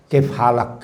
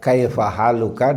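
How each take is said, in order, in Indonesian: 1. Kedua kata menghilangkan vokal akhirnya. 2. Kedua kata mempertahankan vokal akhirnya. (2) "bahasa asalnya"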